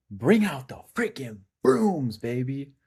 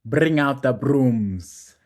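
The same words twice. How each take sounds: First: Hyped. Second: Slow, loud hype shout; hyped shout. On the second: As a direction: drag out a loud celebration. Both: Real, not acted. Celebrating sweep, hyped.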